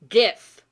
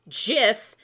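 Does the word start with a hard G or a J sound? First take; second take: hard G; J sound. First: The word begins with a hard G sound. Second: The word begins with a soft J sound. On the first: "GIF because of graphics in the G. G graphic" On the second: "Jif is the peanut butter"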